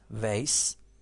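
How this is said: The word is said in an American accent.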